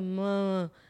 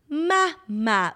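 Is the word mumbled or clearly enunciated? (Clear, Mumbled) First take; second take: Mumbled; Clear. First: The word is slurred into one mushy syllable. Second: The word has two clearly separated syllables. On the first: The speaker calls it wrong. "It wasn't like" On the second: The speaker calls it right. "It was literally so perfectly enunciated"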